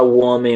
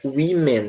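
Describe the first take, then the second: First: The first vowel sounds like an 'o'. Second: The first vowel sounds like an 'i'. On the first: The speaker calls it wrong. "Você não deve falar woman ou qualquer coisa do tipo" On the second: The speaker calls it right. "é women mesmo, tá? Como se fosse um I"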